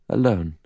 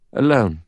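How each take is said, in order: First: Faint echo off rocks. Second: Said in the usual way. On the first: Acted. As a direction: let it come back like an echo. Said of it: "the echo of her voice came back". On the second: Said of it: "the echo of her voice".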